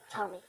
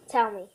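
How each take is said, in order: First: Low, hushed tell me; a hushed, wary dog demand; quiet demand. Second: Louder, pushier tell me; a dog getting pushy; firmer demand. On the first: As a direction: murmur it, uneasy. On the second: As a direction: insist on it now. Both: Acted. Dog demands to know who's there.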